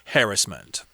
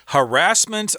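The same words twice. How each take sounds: First: It uses the common British pronunciation. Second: It uses the common American pronunciation. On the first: "the word they tend to use in England" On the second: "more common in American English"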